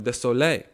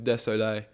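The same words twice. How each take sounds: First: It is said with a French accent. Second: It is said with an English accent. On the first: The speaker calls it right. "that's actually put the French accent on" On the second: The speaker calls it wrong. "I don't know why I'm saying it like in English"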